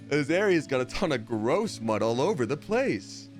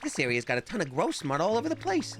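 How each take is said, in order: First: The pitch moves in an ordinary, natural way. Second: The pitch moves in a strange, unnatural way. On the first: The speaker calls it right. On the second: The speaker calls it wrong.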